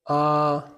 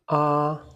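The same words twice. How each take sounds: The two takes are said the same way.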